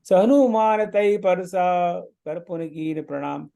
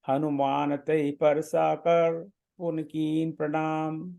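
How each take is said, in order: First: The pause comes after the word parsa. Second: The pause comes after the word kar. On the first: The speaker calls it right. "परसाक में थोड़ा सा mental, थोड़ा सा pause है" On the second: The speaker calls it wrong. "Parsa की जगह कर पर विराम कर देंगे, ऐसा पढ़ेंगे"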